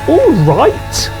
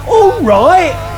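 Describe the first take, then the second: First: The final T sound is clearly pronounced. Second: The final T sound is dropped. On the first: The speaker calls it wrong. "is possible, but it sounds a little bit strange" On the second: The speaker calls it right. "the T at the end is not pronounced"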